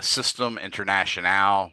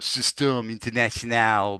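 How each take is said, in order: First: It is said in the speaker's ordinary accent. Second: It is said in an imitation French accent.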